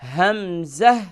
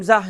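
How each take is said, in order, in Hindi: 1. 'म' की ध्वनि स्पष्ट और पूरी तरह बोली जाती है। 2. 'म' की ध्वनि नरम होती है और नाक से छिपी हुई बोली जाती है। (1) "यहाँ पर इख्फा नहीं करें" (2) "हमज़ा नहीं होगा"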